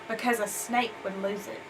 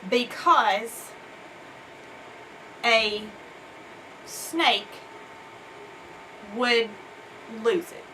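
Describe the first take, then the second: First: It is read smoothly and with ease. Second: It is read haltingly, not smoothly. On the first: The speaker calls it right. "model reading it with uh, smoothly and with ease" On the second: The speaker calls it wrong. "I'm going to model for you real quick what it isn't"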